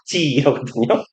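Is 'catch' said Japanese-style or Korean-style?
Japanese-style. It is said Japanese-style with a lengthened vowel. "일본식 발음으로는 캣치거든요. ... 캣치가 장모음일 거예요"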